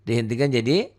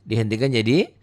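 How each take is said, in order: The two takes are said the same way.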